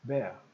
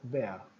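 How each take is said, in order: First: The r sound at the end is barely heard. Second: The r sound at the end is barely heard.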